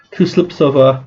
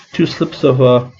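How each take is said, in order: Both takes have the same delivery.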